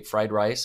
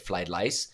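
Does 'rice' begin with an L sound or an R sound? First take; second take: R sound; L sound. First: The word rice begins with an R sound. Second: The word rice begins with an L sound. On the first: "how they say fried rice" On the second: "they often say fried lice"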